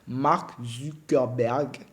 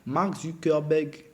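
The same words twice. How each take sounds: First: The name is said slowly and carefully. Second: The name is said quickly and carelessly. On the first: The speaker calls it right. "je vais m'atteler à bien prononcer son nom" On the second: The speaker calls it wrong. "désolé"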